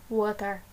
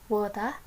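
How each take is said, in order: No difference in how they are said.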